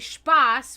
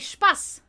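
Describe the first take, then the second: First: The word is said in standard German. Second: The word is said in a regional dialect. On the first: "which is the proper pronunciation of that word" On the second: "but we'll say Spaß... Because of from the region that I'm from"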